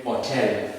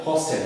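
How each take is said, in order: First: Hotel the French way, no S before the T; S omitted. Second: Hostel with the S sounded before the T; S pronounced. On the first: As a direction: say "hotel" with silent H and no S. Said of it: "the S was omitted". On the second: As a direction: say "hostel", keeping the S audible. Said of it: "cannot say that". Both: Shown as a demonstration.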